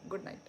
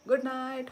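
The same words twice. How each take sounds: First: Said in the usual way. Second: good night called out higher and louder; loud cheery goodnight. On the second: Shown as a demonstration. Streamer calls goodnight to her viewers, louder and higher. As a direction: sing out good night brightly with a lift. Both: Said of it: "बहुत बार बोल दिया यही same dialogue".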